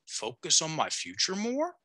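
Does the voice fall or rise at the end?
rise. The voice rises at the end.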